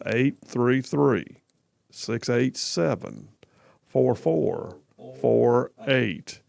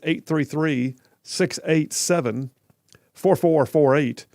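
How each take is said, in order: First: The number is read at a slower pace. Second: The number is read at a quicker pace.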